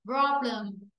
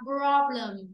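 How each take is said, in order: First: The second vowel is a reduced schwa. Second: The same.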